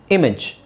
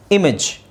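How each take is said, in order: Both takes have the same delivery.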